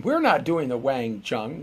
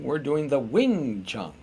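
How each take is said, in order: First: Wang said with an open a, as in wang; Wang Chun. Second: Wing said with a short i, slowly and deliberately; Wing Chun, the right name, with a clear i. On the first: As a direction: Wang Chun, the wrong name, with a flat wa sound. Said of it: "not Wang Chun". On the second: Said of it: "we're not Wang Chunning tonight". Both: Shown as a demonstration.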